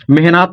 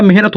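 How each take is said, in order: First: मेहनत as meh-naat, long aa; wrong reading of मेहनत with long naa; misread मेहनत. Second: मेहनत as meh-nat, short vowel; the usual word मेहनत, short second vowel; correct मेहनत. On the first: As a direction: draw the second syllable of मेहनत out to naat. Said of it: "मेहनत नहीं होता". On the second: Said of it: "मेहनत होता है". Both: Shown as a demonstration.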